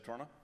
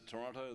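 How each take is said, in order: First: Said imitating the local residents' accent. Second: Said in the speaker's own home accent. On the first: This is how the city's residents say it. "they say" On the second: This is how people from the speaker's home say it. "We pronounce it"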